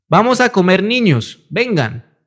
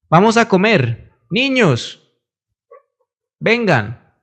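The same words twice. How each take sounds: First: 'Comer niños' runs on without a pause. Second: There is a pause after 'comer'.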